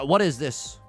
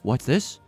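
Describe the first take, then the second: First: It is said in his normal voice. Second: It is said in a Jack Skellington voice.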